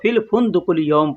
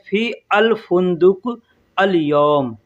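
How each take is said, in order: First: The words run together with the article merged. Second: Each word is said separately with a full article. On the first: This is how it is read aloud. "जब पढ़ेंगे तो" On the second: This is how it is written. "अरबी में अगर हम लिखेंगे तो क्या कहेंगे"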